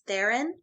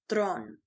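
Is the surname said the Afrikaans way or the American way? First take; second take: American; Afrikaans. First: The surname is said the American way. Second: The surname is said the Afrikaans way. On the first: "in America she goes by Charlize Theron" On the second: "the way she pronounces it in Afrikaans"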